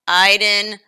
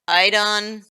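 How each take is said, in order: First: The stress is on the first syllable. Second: The stress is on the second syllable. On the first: The speaker calls it right. "with more inflection on the I and E sound" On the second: The speaker calls it wrong. "She put emphasis on the second syllable"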